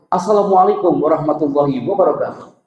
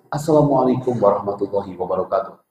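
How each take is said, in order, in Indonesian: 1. Diucapkan dengan nada tinggi. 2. Diucapkan dengan nada sedang. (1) "High voice" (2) "Medium voice"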